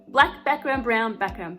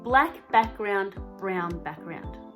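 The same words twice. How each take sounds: First: It is said faster. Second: It is said slowly.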